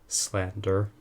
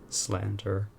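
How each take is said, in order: The two takes are said the same way.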